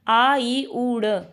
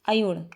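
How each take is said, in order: First: Each sound is said separately with breaks. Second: The sounds run together as one word. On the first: "हम तोड़ते हैं इनको" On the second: "ये एक हो गया अयुण"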